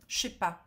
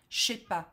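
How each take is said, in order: First: The 'ne' is dropped and words run together. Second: The 'ne' is dropped and words run together.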